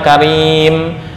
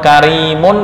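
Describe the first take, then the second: First: The word ends on m, ending dropped. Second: The word ends with the full -un ending. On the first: The reader stops on this word. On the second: The reading continues without a stop.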